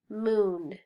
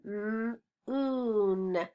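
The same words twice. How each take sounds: First: Said in the usual way. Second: "M-oon" with a held m, then long oon; slow phonics breakdown of "M-oon"; sounded out. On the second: Shown as a demonstration.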